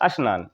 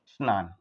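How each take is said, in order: First: It is said with a Bhojpuri regional pronunciation. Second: It is said with a standard Hindi pronunciation. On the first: "वो उनकी बोली का प्रभाव है" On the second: "ये शुद्ध है"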